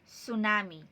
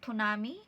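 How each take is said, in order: First: The word begins with a plain S sound. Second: The word begins with an audible T sound. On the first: The speaker calls it right. "silent T. Parang S" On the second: The speaker calls it wrong. "Hindi yan tsunami"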